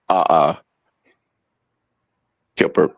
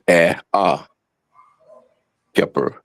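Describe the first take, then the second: First: The first syllable is an open 'ah' sound. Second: The first syllable is an 'eh' sound. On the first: The speaker calls it wrong. "why would you pronounce the arm eh as the vulture ah" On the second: The speaker calls it right. "That's eh ah kipper"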